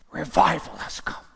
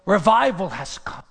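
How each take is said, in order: First: Said in the usual way. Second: Revival ringing out loud; louder proclamation. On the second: Shown as a demonstration.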